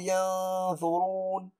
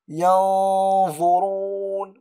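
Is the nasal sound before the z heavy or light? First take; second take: light; heavy. First: The nasal sound is light and thin. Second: The nasal sound is heavy and full. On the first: The speaker calls it wrong. "ولا أقول ينظرون" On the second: The speaker calls it right. "هذه الغنة يجب أن تكون مفخمة. أقول ينظرون"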